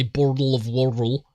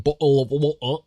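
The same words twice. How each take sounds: First: Exaggerated American accent, louder, slurring the t's in "bottle of water"; imitated American accent. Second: Mock British "bottle of water" with glottal stops for the t's; louder, parodied English accent, t's dropped in "bottle of water"; imitated English accent. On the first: Mocking how Americans say it, exaggerated American "bottle of water". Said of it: "but then they say". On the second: Americans mocking the English, exaggerated British "bottle of water". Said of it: "make fun of the English for saying".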